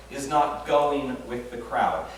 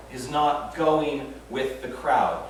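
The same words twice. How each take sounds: The two takes are said the same way.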